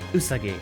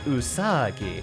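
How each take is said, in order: First: Every syllable gets the same stress. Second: One syllable is stressed more than the others. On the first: The speaker calls it right. "equal stress on each syllable" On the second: The speaker calls it wrong. "It's not Usagi"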